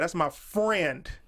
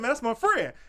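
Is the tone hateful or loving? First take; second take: hateful; loving. First: It is said in a cold, hostile tone. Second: It is said in a warm, affectionate tone. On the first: The speaker resents this friend. "I can say it with hate" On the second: The speaker is fond of this friend. "I can say that with love"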